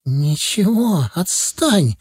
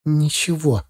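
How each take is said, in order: First: Drawn-out, higher plea to be left alone; mild cry, holding back tears; slow, strained outburst, barely holding it together; tearful cry. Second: Understated, withdrawn reply; mildly closed-off, eyes down; evasive answer. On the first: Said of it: "крикнула она, едва сдерживая слёзы". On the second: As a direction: brush the question off without engaging. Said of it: "ответила она, не поднимая глаз". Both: A narrator's reading.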